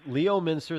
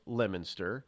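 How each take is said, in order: First: Said in the usual way. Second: "Leominster" said as "Lemminster"; local pronunciation. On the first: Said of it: "they pronounce Leominster". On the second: Shown as a demonstration. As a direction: squeeze "Leominster" down to "Lem-in-ster". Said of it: "they pronounce".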